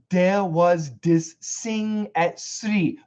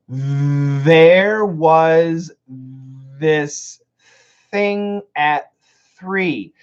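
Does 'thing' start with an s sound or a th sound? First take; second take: s; th. First: Thing starts with an s sound. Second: Thing starts with a breathy th sound. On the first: The speaker calls it wrong. "I don't want this" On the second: The speaker calls it right. "So these are aspirated sounds"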